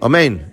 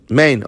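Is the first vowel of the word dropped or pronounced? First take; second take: pronounced; dropped. First: The opening vowel is clearly pronounced. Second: The opening vowel is dropped from the word. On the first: The speaker calls it right. "you don't say omen with a komatz" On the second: The speaker calls it wrong. "You don't pronounce the o"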